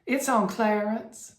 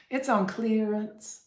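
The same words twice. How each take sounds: First: Clarence in a slow Southern accent, a little higher; Southern drawl, Clarence. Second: Clearance in a slow Southern accent, a little higher, with a clear long ee; Southern drawl, lean on the ee in clearance; Southern accent, clearance with the E hit. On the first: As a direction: drawl It's on Clarence Southern style, a touch high. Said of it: "with a Southern accent". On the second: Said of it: "You really have to hit that E". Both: Shown as a demonstration.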